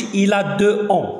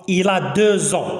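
First: Deux ans with a gap and no 'z' sound; wrong, no liaison. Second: Deux ans linked with a 'z' sound, slowly; correct liaison. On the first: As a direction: leave the x of deux silent before ans. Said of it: "ما كنقولوش il a deux ans". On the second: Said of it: "هاد اكس كتصبح زد". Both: Shown as a demonstration.

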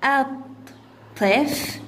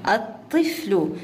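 First: الطفل slowly as at, tif, lu; syllable by syllable. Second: Said in the usual way. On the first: Shown as a demonstration. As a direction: split الطفل into three separate beats. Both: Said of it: "تقطيعها".

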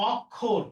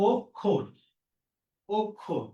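First: অক্ষর opening on open aw, awk-khor; as-written pronunciation. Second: অক্ষর as ok-khor, both vowels round o; correct pronunciation. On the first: Teacher reading the word as written, open first vowel. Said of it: "এটা লেখা আছে অক্ষর". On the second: Teacher giving the right answer, rounded o vowels. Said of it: "হবে কি". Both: Shown as a demonstration.

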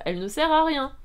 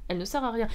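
First: Raised, higher outburst of exasperation; exasperated. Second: Said in the usual way. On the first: Real, not acted. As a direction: stress RIEN in loud exasperation. Exasperated verdict on heroine. (exaspération, voix haute et forte)

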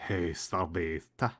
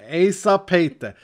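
First: "Ei sapeite" very slow, low and soft; faulty Finnish imitation. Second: "Ei sapeite" louder, firm and slow; corrected Finnish. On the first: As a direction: try copying "Ei sapeite" hesitantly, dragged out. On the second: Shown as a demonstration. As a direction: model "Ei sapeite" firmly with Finnish vowels.

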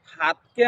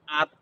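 First: Said in the usual way. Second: আত with the opening h dropped; Gazipur dialect. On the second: Shown as a demonstration. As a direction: say আত as "at", starting on the vowel. (গাজীপুরের উচ্চারণে আত, হ ছাড়া) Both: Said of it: "Gazipur আঞ্চলিক ভাষায়".

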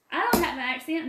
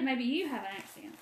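First: "I" lifted and louder, rising at the end; stress on I. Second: "you" stressed with a falling tune, softer overall. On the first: Answering Bill about her accent, stress on "I". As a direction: lean on the word "I" in protest. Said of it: "Well, my southern accent, Bill?". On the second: Turning the accent back on Bill, stress on "you". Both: Shown as a demonstration.

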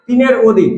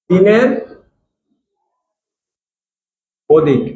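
First: Said in the usual way. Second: তিনের and অধিক said as separate words, long pause between; slow teacher dictation of তিনের অধিক. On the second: Shown as a demonstration.

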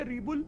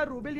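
First: रीबुल with "ree" first and "bul" after; alternative pronunciation. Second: रूबिल with "roo" first and "bil" after; first pronunciation option. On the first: (रीबुल में पहले "री", फिर "बुल") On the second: (रूबिल में पहले "रू", फिर "बिल") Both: Shown as a demonstration. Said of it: "कुछ तो है, चैट बताएगी".

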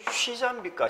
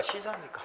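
First: 쉬자 with Gyeongsang accent; Gyeongsang dialect sounds. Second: Said in the usual way. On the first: Shown as a demonstration. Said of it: "우리 경상도 말로는". (경상도 사투리로 쉬자) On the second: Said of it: "이 발음 이렇게 하잖아".

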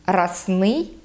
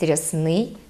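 First: Расний with a hard r, "ras-NYI". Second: Said in the usual way. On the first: Shown as a demonstration. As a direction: dialect расний, no softening of r. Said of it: "твердий". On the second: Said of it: "замість".

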